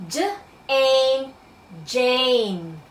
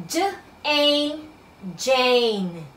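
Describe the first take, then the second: No difference in how they are said.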